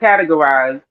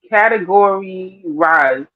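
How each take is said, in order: First: It is said as the usual word 'categorize'. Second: It is said like 'category' followed by 'rise'. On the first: The speaker calls it right. "not categorize" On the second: The speaker calls it wrong. "what else he said? Category rise"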